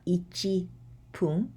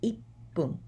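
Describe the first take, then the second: First: Every syllable is said in full. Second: It is contracted, with a doubled p sound. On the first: The speaker calls it wrong. "It's not ichi pun" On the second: The speaker calls it right. "but ippun"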